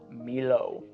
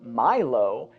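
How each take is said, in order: First: The name is said with a French pronunciation. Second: The name is said with an American pronunciation. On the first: "the more French pronunciation of Milo" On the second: "I'm going to talk American, so I'm pronouncing Milo"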